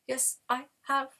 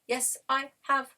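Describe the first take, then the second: First: It is said in a robotic voice. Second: It is said in a robotic voice.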